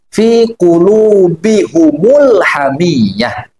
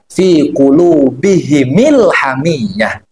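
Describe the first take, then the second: First: Both the h and the m take a u vowel. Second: Both the h and the m take an i vowel. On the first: This is another school's reading of the verse. "membacanya dengan mendobahkan mim jama" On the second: This is one school's reading of the verse. "membacanya dengan mengkasrohkan mim jamaknya"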